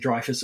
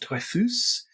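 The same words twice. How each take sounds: First: The name is said with an English pronunciation. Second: The name is said with a French-like pronunciation. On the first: The speaker calls it wrong. "in France they would not have said Dreyfus" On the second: The speaker calls it right. "It was something along the lines of Dreyfus"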